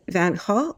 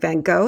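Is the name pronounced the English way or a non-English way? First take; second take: non-English; English. First: The name is pronounced in a non-English way. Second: The name is pronounced in the English way.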